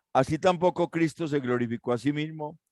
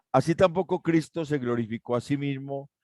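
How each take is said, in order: No difference in how they are said.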